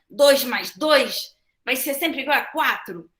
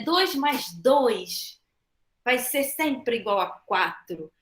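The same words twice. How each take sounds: First: It is said in an angry tone. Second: It is said in a warm, loving tone. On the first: The listener will hardly learn from it. The speaker calls it wrong. "se eu falar com raiva" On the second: The listener may be able to learn from it. The speaker calls it right. "Eu já estou falando, com amor"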